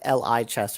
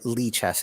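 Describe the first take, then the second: First: The first syllable is not said as 'lee'. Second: The first syllable is said as 'lee'. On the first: The name is read as letters or an abbreviation. The speaker calls it wrong. "I originally thought it might be like L I chess" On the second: The name is short for libre chess. The speaker calls it right. "Lee chess is the correct pronunciation"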